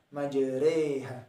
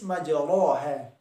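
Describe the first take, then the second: First: The vowel after r sounds like e. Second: The vowel after r is a plain a. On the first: This is how the word is actually recited. "pengucapannya ad adalah majreha" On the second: This is how the word is written. "Tertulis majroha"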